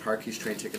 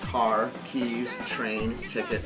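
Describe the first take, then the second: First: Car keys is said without a pause inside. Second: There are pauses between car and keys. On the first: Car keys and train ticket are single items. The speaker calls it right. "she grabbed her car keys and her train ticket" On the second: Car, keys, train and ticket are separate items. The speaker calls it wrong. "really, she grabbed her car and her train?"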